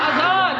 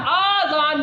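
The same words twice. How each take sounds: First: اذان with a short first a, no long madd; correct short a. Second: آذان with a drawn-out long aa at the start; wrong long aa. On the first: Teacher giving the right pronunciation of اذان. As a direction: say اذان crisply, short opening a. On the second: Teacher demonstrating the wrong long aa in آذان. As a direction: stretch the aa in آذان as the mistake. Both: Shown as a demonstration. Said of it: "آذان نہیں ہے".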